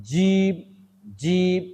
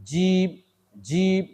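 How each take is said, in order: Both takes have the same delivery.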